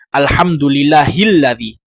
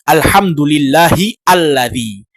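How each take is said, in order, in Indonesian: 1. Kedua kata menyambung, tanpa hamzah. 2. alladzi mulai baru, dengan hamzahnya sendiri. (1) "tetapi kita mengatakan hilladzi" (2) "Tidak kita mengatakan"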